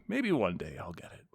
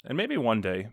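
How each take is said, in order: First: Softer, wistful repeat of maybe one day; dreamy hush. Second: Said in the usual way. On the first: Real, not acted. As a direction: let it fade like a longing.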